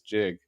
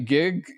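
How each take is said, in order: First: It begins with a soft j sound. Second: It begins with a hard g sound. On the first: This is the original way it was said. "the original pronunciation was jig" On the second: This is how people say it now. "people say gig, you know, like gigawatts now"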